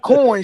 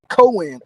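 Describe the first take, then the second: First: The word is said the usual standard way. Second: The word is said in a country-style way. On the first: This is how most people say it. "she don't say coin" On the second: This is how the speaker's mother says it. "She say coin"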